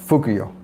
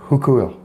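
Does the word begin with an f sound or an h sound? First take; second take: f sound; h sound. First: The word begins with a plain f sound. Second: The word begins with a breathy h sound. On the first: The speaker calls it wrong. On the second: The speaker calls it right.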